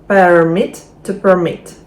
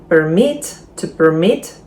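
Both takes have the same delivery.

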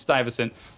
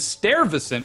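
First: The first syllable has no R sound. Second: The first syllable has an R sound.

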